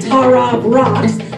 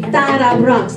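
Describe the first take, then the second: First: It has an English R and a plain T. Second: It has a rolled R and a D-like T. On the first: "the American way to say it is" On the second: "but you can say"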